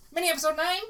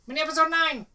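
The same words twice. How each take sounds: First: The voice rises at the end, like a question. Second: The voice falls at the end, like a statement. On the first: It sounds like a question. The speaker calls it wrong. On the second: It is a plain announcement. The speaker calls it right.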